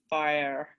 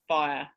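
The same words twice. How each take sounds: First: The word is said as two syllables. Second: The word is said as one syllable. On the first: "as though it's a disyllabic word" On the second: "instead of"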